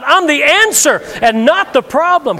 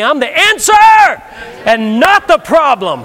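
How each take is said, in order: First: Louder declaration to the crowd. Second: Louder, stress on not; emphatic declaration. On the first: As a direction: call it out boldly. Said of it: "Come on, say it out loud". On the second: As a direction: drive home the word not. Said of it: "Say it with me". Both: Shown as a demonstration.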